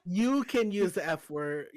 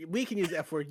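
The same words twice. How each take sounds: First: You punched, said slowly; stress on you. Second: We punched at the start; stress on we. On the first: To friend on who may say it, stress on You. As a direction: lean on You, not on the word. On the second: To friend on fat people's word, stress on We. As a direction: hit We to claim the word. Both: Shown as a demonstration.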